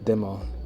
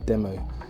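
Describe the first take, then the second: No difference in how they are said.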